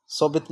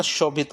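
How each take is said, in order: First: शोभित starting with a plain 's'; wrong initial sound. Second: शोभित starting with a clear 'sh'; correct 'sh' sound. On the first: Teacher ruling out the misspelling, शोभित with 's' for 'sh'. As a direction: say शोभित as so-bhit. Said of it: "नहीं आता". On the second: Teacher giving the right form, शोभित with 'sh'. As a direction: say शोभित as sho-bhit. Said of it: "श से सलजम आएगा". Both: Shown as a demonstration.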